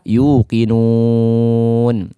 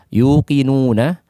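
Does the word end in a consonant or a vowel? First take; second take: consonant; vowel. First: The word ends on a bare consonant. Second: The word ends with a final vowel.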